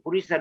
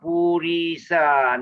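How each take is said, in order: First: The vowels are all said short. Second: A vowel is drawn out long. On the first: The speaker calls it right. "short you" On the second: The speaker calls it wrong. "not Purisa, no"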